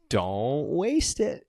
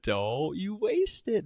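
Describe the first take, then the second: First: Drawn out, slow and ominous; slow creepy warning; slow menacing quote. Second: Higher, slow, stretched warning; slow high mock threat; high slow mock menace. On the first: Retold or imitated. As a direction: stretch it out like a threat. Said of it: "And he goes". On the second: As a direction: ham up the creepy line, pitched up. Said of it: "He said, he said".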